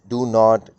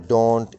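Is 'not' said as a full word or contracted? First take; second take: full; contracted. First: Not is said as a full separate word. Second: The vowel of not is dropped and joined.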